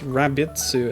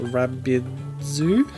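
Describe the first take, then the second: First: The word ends with a t sound. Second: The word ends with a d sound. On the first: The speaker calls it right. "it's Rabitsu" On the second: The speaker calls it wrong. "not Rabidzu"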